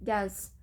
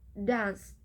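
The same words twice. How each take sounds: First: It is said fast with a t before s. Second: It is said slowly with no t sound added. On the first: "in fast speech, there is an addition of sound T between phonemes N and S" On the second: "in slow pronunciation, this word is pronounced by dance"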